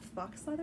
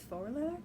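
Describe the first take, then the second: First: The word ends with a clear ks sound. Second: The word ends in a vowel, no ks sound. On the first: The speaker calls it wrong. "It's not fox leather" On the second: The speaker calls it right. "It's faux leather"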